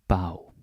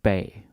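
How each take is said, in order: First: The vowel sounds like 'ow'. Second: The vowel sounds like 'ay'. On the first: The word is used as a prefix. "when it's a prefix, then it becomes bow" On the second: The word stands alone. "normally pronounced bay when it's alone"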